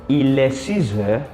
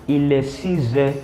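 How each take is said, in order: The two takes are said the same way.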